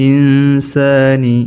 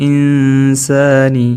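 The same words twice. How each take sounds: No difference in how they are said.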